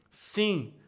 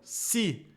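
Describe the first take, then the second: First: The vowel is nasal, air through the nose. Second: The vowel is oral, with no nasal sound. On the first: "se eu nasalizo o i" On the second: "isso passa só pela minha boca"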